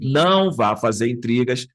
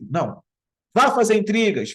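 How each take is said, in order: First: There is no pause after the first word. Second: There is a pause after the first word. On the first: The speaker advises the person not to make trouble. "Acho que esse é o sentido original" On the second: The speaker ironically tells the person to go make trouble. "Essa vírgula, se nesse sentido, estaria certo... De ironia, sim"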